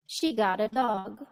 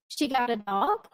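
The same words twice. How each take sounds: First: DOG falls in pitch as a finished statement; falling intonation. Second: DOG rises in pitch; rising intonation. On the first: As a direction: drop the pitch on dog to close the thought. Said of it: "intonation went down to indicate the completion". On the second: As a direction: lift dog upward like a question. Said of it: "what happened with the sound of the focus word". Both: Shown as a demonstration.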